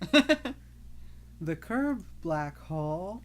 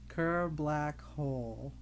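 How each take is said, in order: First: The first word sounds like 'curved'. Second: The first word sounds like 'Kerr'. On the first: The speaker calls it wrong. "making fun of Mayushi for not being able to pronounce it" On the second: The speaker calls it right.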